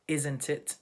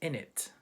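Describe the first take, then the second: First: The phrase is said in its full form. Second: The phrase is reduced to two short syllables.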